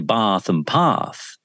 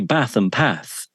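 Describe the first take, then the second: First: It has southern long vowels. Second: It has northern short vowels.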